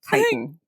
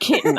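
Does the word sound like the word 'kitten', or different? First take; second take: different; like kitten. First: It sounds different from the word kitten. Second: It sounds just like the word kitten. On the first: The speaker calls it right. "it is indeed chitin" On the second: The speaker calls it wrong. "that's kitten. That's a, that's a small young cat"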